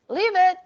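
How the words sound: It is said in a calm, neutral tone. A calm request with no threat. The speaker calls it right. "use a neutral tone of voice, such as leave it"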